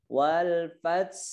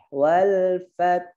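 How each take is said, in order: First: The final consonant is a hissing s sound. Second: The final consonant is a soft breathy h sound. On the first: The speaker calls it wrong. "Dia malahnya ke sa, enggak boleh ya" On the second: The speaker calls it right. "Jadi ke hak ya napas yang keluar bukan suara desis"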